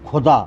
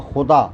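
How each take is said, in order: First: खुदा with a plain kh as in dug; खुदा said with a plain aspirated kh, no nukta; खुदा meaning dug, plain kh. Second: खुदा with a throaty x, as in God; खुदा said with a rasping x sound from the throat; खुदा meaning God, with a throaty x; nukta kh. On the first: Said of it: "खुदा माने खुदा हुआ". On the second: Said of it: "नुक्ता लगा है". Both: Shown as a demonstration.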